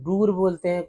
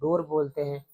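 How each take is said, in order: First: The vowel sounds like a long 'oo'. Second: The vowel sounds like a long 'oh'. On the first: The speaker calls it wrong. "कुछ लोग अ, दूर बोलते हैं" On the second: The speaker calls it right. "कुछ लोग डोर बोलते हैं... डोर ज्यादा क्लियर है"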